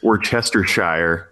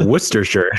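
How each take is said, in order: First: Slow "Worcestershire" as wor-CHES-ter-shire; massacred pronunciation. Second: "Worcestershire" as WUSS-ter-sher; smushed down. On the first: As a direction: spell out every part of "Worcestershire". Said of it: "just massacring". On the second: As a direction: squash "Worcestershire" into three syllables. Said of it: "smush down into". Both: Shown as a demonstration.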